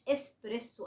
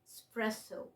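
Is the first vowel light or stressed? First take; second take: stressed; light. First: The first vowel is clearly stressed. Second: The first vowel is light and unstressed. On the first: The speaker calls it wrong. "انا بنطقها عشان تعرف ان في اي في الاول" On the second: The speaker calls it right. "الايم ما عليهاش ستريس قوي"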